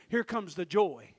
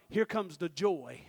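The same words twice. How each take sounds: The two takes are said the same way.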